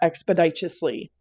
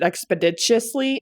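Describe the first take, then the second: First: It has plain, unexaggerated vowel and D sounds. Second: It has exaggerated Midwestern vowel and D sounds. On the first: "instead of expeditiously" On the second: "I pronounce it expeditiously"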